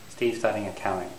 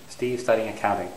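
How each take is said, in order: The two takes are said the same way.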